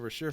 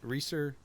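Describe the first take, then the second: First: The first vowel sounds like in 'rash'. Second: The first vowel sounds like in 'fleece'. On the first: The speaker calls it wrong. "I always said Rasher before" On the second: The speaker calls it right. "it does definitely say Reeser"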